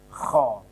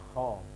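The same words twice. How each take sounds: First: The sound is heavy and strongly pressed. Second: The sound is light and not pressed. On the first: The speaker calls it wrong. "ini berat" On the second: The speaker calls it right.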